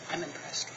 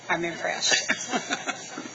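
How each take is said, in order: First: It is said at a normal, quiet volume. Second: It is said louder, with more volume.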